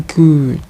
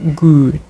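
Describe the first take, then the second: Both takes have the same delivery.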